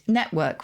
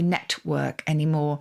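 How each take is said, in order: First: The middle t is a glottal stop. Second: The middle t is clearly released. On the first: This is how people say it now. "you will find network, we say" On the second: People no longer say it this way. "We don't say network anymore"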